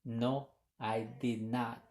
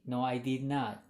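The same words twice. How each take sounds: First: "No, I did not" slow, each word set apart; slow careful model. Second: Said in the usual way. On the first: Shown as a demonstration. Teacher models the negative answer for students, slow and clear. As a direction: model it slowly so students catch every word. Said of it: "Y si contestamos de manera negativa". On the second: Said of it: "Así pueden decirlo".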